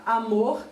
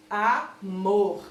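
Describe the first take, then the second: First: Said in the usual way. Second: "Amor" broken into a, then strong mor; stress on MOR. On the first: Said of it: "na palavra amor". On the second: Shown as a demonstration. Teacher showing pupils the strongest syllable, stressed MOR in "Amor". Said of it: "o mor é a sílaba mais forte".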